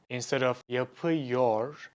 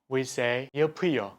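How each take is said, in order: First: The final r sound is kept. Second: The final r sound is dropped. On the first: "instead of" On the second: "we say"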